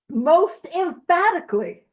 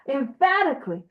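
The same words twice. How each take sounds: First: "Most emphatically" hammed up, loud and slow with a high start; overdone emphasis. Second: "Emphatically" with stress on the "pha" syllable, said evenly; corrected stress. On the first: Reading to the group, he belts "Most emphatically" slowly. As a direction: stretch out "Most emphatically" as a big mock proclamation. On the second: Correcting himself for the group, calmly stressing "pha" in "Emphatically". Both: Shown as a demonstration. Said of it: "put the emphasis on the correct syllable this time".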